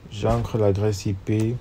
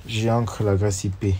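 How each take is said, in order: Both takes have the same delivery.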